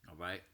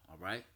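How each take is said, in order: The two takes are said the same way.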